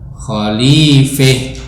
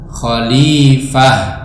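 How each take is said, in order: First: The vowel before final h leans toward e. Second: The vowel before final h is an open a. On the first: One reciter's reading with imalah when pausing. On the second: The common reading with fathah.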